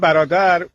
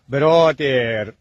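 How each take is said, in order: First: The word ends short, with no stretching. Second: The end of the word is drawn out. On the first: This is how Persian speakers say it. "ما میگیم" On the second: This is how English speakers supposedly say it. "اونا میگن ... آخرشو یه خورده میکشم"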